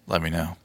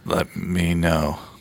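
First: It is said with somewhat more energy. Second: It is said very sleepily and low-key.

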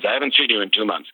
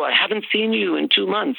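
First: It is said in a flat, accusing tone. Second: It is said with a warm, smiling lilt. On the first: The speaker is complaining about the absence. "they're reading it as" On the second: The speaker is happy to reach out. "you're saying it with a smiley kind of lilt in your voice"

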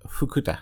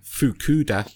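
First: It is said with a Japanese pronunciation. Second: It is said with an English accent.

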